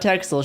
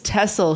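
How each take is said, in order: First: Texel is said the English way. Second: Texel is said the local Dutch way. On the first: The speaker calls it wrong. "not Texel sheep" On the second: The speaker calls it right. "It's Texel sheep"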